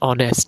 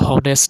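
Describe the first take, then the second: First: The word begins with a vowel sound. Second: The word begins with an h sound. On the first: The speaker calls it right. "আমরা বলি কি অ্যান অনেস্ট" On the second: The speaker calls it wrong. "আমরা কিন্তু হনেস্ট বলি না"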